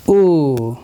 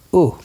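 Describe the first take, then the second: First: U held out as a long "oo"; long vowel sound. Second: U said as a brief "oo"; short vowel sound. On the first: Teacher comparing short and long sounds, long U. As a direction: stretch U into one long vowel. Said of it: "compare these short and long sound". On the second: Teacher comparing short and long sounds, short U. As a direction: keep U short. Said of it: "Okay, here it is". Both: Shown as a demonstration.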